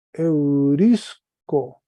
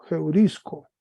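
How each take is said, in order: First: Eurisco stretched very slowly and louder; slow model pronunciation. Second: Heurisco with an h onset; rough breathing added. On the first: Teacher slowly reads Greek verb for class. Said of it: "Entonces se lee". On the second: Teacher corrects to heurisco for students. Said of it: "espíritu fuerte...como una J". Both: Shown as a demonstration.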